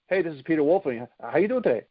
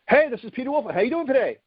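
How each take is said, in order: First: It is said flatly, with little inflection. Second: It is said with lively, varied inflection. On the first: "Or instead of" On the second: "to be able to use voice inflection"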